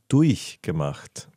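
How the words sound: The ch in 'durch' is a soft, fronted hiss. This is how Germans say it. "die sagen durchgemacht, mit I sogar"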